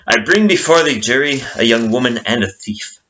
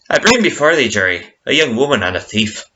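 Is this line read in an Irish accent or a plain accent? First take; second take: plain; Irish. First: It is read in an ordinary, unaffected accent. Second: It is read in a put-on Irish accent. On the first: "I can't read it like this" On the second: "Let me try with an Irish accent or something"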